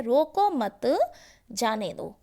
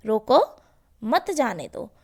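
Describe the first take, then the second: First: रोको मत said together, then a pause before जाने दो; pause after मत. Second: रोको alone with a loud lift, pause, then मत जाने दो together; pause after रोको. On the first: Teacher reading the first example sentence to pupils, pause after मत. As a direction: hold रोको मत as one phrase, break, then drop on जाने दो. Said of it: "पहला जो वाक्य है उसमें है". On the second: Teacher reading the second example sentence to pupils, pause after रोको. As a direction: break straight after रोको, running मत into जाने दो. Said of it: "हमने अल्पविराम कहाँ लगाया है".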